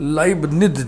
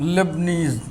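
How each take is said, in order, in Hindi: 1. पहला अक्षर 'lie' जैसा सुनाई देता है। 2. पहला अक्षर 'lay' जैसा सुनाई देता है। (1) "उसमें इस नाम का उच्चारण लाइबनिज लिखा हुआ है" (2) "हम मैथमेटिक्स वाले शॉर्ट में इसको लेबनीज लेबनीज बोलते हैं"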